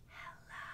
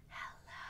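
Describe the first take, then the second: Both takes have the same delivery.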